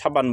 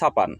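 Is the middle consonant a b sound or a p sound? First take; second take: b sound; p sound. First: The middle consonant is a voiced b sound. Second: The middle consonant is a voiceless p sound. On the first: This is the standard form. "আপনারা এটাকে যারা সাবান হিসাবে চিনেন" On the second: This is the Pabna regional form. "আমরা বলি সাপান"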